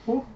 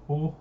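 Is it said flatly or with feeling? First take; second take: with feeling; flatly. First: It is said with more feeling. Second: It is said flatly, without feeling.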